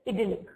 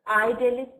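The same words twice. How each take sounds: First: It is pronounced the British way. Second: It is pronounced the American way. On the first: "in U K English it's idyllic" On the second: "in U S English it's idyllic"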